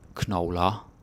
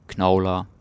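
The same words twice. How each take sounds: First: The stress is on the last syllable. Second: The stress is on the first syllable. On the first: The speaker calls it wrong. "I'm just doing that to highlight that they're different" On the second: The speaker calls it right. "You never put the stress on the end"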